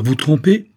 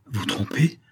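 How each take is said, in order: First: Loud, high, rising question; indignant exclamation. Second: Whispered question; hushed disbelief. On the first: Saphir cries out at the vicomte's accusation, indignant. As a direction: cry it out, pitch shooting up. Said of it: "s'écria Saphir". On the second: Saphir answers the vicomte's accusation in a hushed voice. Same words, hushed first take. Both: A narrator's reading.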